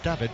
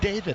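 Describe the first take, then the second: First: The name is said with Spanish vowels. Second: The name is said with English vowels. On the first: "as opposed to David" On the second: "I think he does call himself David"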